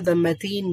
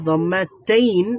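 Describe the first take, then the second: First: The last syllable has a short plain 'in' vowel. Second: The last syllable has a long 'ayn' diphthong. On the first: This is how it is said in everyday speech. "বলার সময় দম্মাতিন বলে" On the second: This is the formal or written form. "শব্দটা হচ্ছে দম্মাতেইন"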